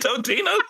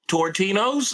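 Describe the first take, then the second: First: No R sound follows the first vowel. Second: An R sound follows the first vowel. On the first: The speaker calls it right. "ain't it Totino?" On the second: The speaker calls it wrong. "How'd you get that wrong?"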